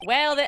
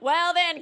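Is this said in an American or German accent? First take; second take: American; German. First: It is said in a plain American accent. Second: It is said in a put-on German accent. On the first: The speaker calls it wrong. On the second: The speaker calls it right.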